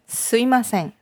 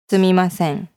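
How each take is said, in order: First: The middle 'm' is dropped, giving 'sui'. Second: The middle 'mi' sound is fully pronounced. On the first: It is a colloquial, abbreviated form. The speaker calls it wrong. "a little bit of an abbreviation in the enunciation" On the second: It is the proper, polite form. The speaker calls it right. "It's a little bit more enunciated"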